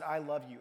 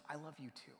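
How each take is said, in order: First: Said in the usual way. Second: Very quiet, almost swallowed answer; soft tender reply. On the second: Retold or imitated. Ill grandmother answering the mother, very softly. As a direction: give the words back softly.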